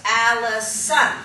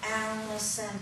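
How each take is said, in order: First: Slow Allison, mouth wide on the stressed syllable; animated emphasis. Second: Allison said softer with barely moving lips; flat, lifeless Allison, mouth hardly opening; stationary delivery. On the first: Puppet teacher showing the animated Allison, slow and stressed. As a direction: open wide and lean on Allison. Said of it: "opened my mouth a little bit wider where the emphasis was". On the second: Teacher mocking a stiff puppet's Allison, soft and stationary. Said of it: "this very stationary". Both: Shown as a demonstration.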